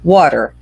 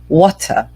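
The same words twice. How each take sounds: First: It is said in an American accent. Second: It is said in a British accent. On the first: "Se vocês preferirem mais americanos" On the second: "Se vocês preferirem mais britânico"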